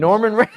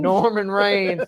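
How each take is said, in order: First: Norman Reigns echoed high and loud through a laugh; delighted laughing repeat. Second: A hint of the grandma voice, slow; echoing grandma. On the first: Real, not acted. Cohost echoes the nickname, cracking up laughing. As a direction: savor the joke, louder and higher. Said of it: "I shit myself". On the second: Cohost repeats grandma's mispronunciation, slowly. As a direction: savor the nickname. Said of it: "That's what I'm calling him".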